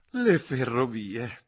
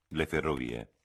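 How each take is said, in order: First: Slow, high, breathless through giggles; gasping with laughter. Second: Said in the usual way. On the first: Acted. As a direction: gasp it out, choking on laughter. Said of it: "ansimò la signorina Levish". (ansimando tra le risate)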